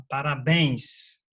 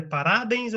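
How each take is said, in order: First: "parabéns" with a long, stressed BÉNS; stress on last syllable. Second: "parabéns" wrongly stressed as pa-RÁ-bens; misplaced stress. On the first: Teacher gives the right option, stress on BÉNS of "parabéns". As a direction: slowly stretch the final syllable of "parabéns". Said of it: "ou você fala". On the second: Teacher offers a wrong option, stress on RA of "parabéns". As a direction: punch RA in "parabéns", let BENS fall away. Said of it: "Você fala é parabéns". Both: Shown as a demonstration.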